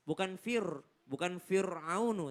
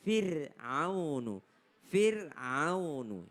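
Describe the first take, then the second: First: FIR'AUNU with a heavy, thick r; mispronounced FIR'AUNU, r too full; wrong r demo. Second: FIR'AUNU slowly, with a thin r; slow model of FIR'AUNU with a thin r; correct thin r. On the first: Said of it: "Bukan fir, bukan Fir'aunu, tapi". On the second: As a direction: draw out FIR'AUNU, r kept light. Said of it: "maka ro-nya adalah tipis". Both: Shown as a demonstration.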